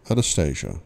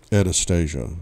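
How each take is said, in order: First: Said in the usual way. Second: Sulky, muttered Anastasia; petulant mutter. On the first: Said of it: "repeats the name evenly". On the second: A narrator's reading. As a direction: mutter Anastasia like a sulking boy. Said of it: "I mutter petulantly".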